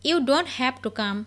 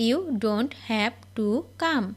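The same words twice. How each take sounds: First: Said in the usual way. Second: Slow, clear repeat. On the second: Shown as a demonstration. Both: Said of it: "teacher model then slow repeat".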